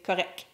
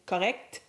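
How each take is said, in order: First: The final T is dropped after the C. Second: The final consonants are both fully pronounced. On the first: "Note that the T is rarely pronounced" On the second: "instead of saying correct"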